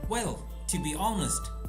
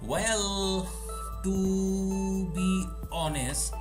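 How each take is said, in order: First: It is said smoothly as one chunk. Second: It is said haltingly, word by word. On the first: The speaker calls it right. "if I focus on the phrase, I'll get something different" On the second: The speaker calls it wrong. "Now I'm focusing on words"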